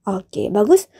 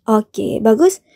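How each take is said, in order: Both takes have the same delivery.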